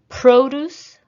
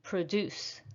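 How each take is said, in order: First: Produce with a high, loud PRO; stress on first syllable. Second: Produce softer, with the stress on DUCE; stress on second syllable. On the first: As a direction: punch the start of Produce, as a noun. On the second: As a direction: lean on the end of Produce, as a verb. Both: Shown as a demonstration. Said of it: "practice shifting the stress".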